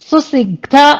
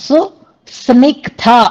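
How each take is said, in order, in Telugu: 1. s వెంటనే i వస్తుంది. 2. s తర్వాత n శబ్దం వస్తుంది. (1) "సా కింద ఒత్తు వినపడలేదు" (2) "సా కింద నావొత్తు"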